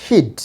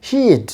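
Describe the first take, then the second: First: হিড with a short, quick i, like "hid"; short vowel. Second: হিড with a long ee, like "heed"; long vowel. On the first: Teacher shows the wrong version to avoid, short vowel. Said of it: "not হিড". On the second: Teacher corrects the short version, long vowel. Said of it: "একটু elongated করতে হবে". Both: Shown as a demonstration.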